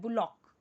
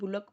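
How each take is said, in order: First: The second vowel sounds like an open 'aw'. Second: The second vowel sounds like a short 'uh'. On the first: The speaker calls it right. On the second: The speaker calls it wrong.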